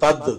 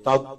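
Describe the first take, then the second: First: The final d is released with a jolting bounce. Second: The final d is held smoothly without a bounce. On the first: The speaker calls it wrong. "যেন ধাক্কা না পড়ে, তাদ এভাবে যাতে না হয়" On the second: The speaker calls it right. "তাদ ধরে রাখতে হবে"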